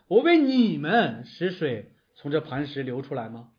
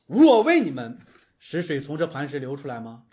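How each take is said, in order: First: The stress is on the word 你们. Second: The stress is on the word 我. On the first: The listeners do not deserve the water. "我自己觉得更可能是后一种" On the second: The speaker is taking credit for the water himself. "如果他说的是我，是我为你们让水流出来吗"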